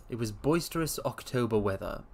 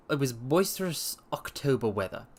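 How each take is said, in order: Both takes have the same delivery.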